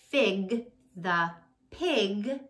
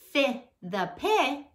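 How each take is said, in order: First: The final g sounds are clearly pronounced. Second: The final g sounds are left off. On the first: The speaker calls it right. "I did a good job saying my ending g sounds there" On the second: The speaker calls it wrong. "I left out the final sound"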